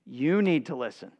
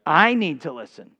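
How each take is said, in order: First: "you" pointed at the others; "you need to listen" with the weight on "you"; stress on you. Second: "I" stressed, turned back on oneself; "I need to listen" with the weight on "I". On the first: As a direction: lean on "you", accusing. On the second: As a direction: lean on "I", owning it. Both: Shown as a demonstration.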